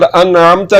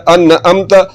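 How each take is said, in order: First: अनअमता with a squeezed, voiced mid-throat ain; throaty ain. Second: अनअमता with a plain glottal catch, 'an-amta'; wrong hamza. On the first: Teacher contrasting ain with hamza, throaty ain. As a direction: let the ain sound through in अनअमता. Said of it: "यही गलती आ गई ऐन और हमजा की". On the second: Teacher showing learners the mistake, plain hamza. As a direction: break अनअमता with a simple catch. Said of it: "जो कि गलत है". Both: Shown as a demonstration.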